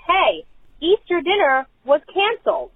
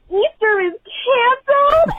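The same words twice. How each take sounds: First: Raised, higher call across the house; lightly mimed holler; retold yell. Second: Very high imitated tearful child; mock child wail. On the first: Parent calling over to husband, retold yell. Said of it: "So I yell over to my husband". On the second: Parent imitating three-year-old hearing the news, mock wail. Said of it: "and starts crying".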